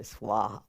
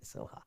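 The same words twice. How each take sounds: First: "swaha" with a clear "sw" glide. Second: "soha" as SO-HA, no "w" glide; SOHA without W. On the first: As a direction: say "swaha" as S-WAH-HA, the rejected form. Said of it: "We don't say really swaha". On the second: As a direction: say "soha" softly with a plain "so". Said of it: "we say soha". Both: Shown as a demonstration.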